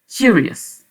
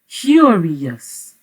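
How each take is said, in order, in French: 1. Le mot est prononcé vite et coupé. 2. Le mot est prononcé lentement et traîné. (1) "vous pouvez dire encore plus vite curious" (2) "je vais encore prononcer curious plus lentement"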